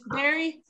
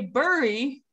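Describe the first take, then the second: First: The vowel sounds like 'very'. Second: The vowel does not sound like 'very'. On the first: The speaker calls it right. "It's berry, berry" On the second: The speaker calls it wrong. "This looks like you would say bury, but no"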